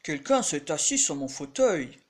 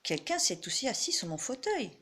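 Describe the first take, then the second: First: It is said in a big, deep voice. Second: It is said in a medium-pitched voice.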